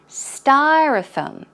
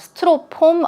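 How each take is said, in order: First: The first syllable is stressed and lengthened. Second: The first syllable is not stressed or lengthened. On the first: "the first syllable is a bit longer and the stress goes on the first syllable" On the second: "I think I used to pronounce it as uh"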